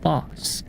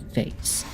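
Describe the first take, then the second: First: The word is said in a non-American way. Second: The word is said in an American way. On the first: The speaker calls it right. "It's pronounced boss. There is no exceptions" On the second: The speaker calls it wrong. "Only you dumb Americans ever pronounce it vase"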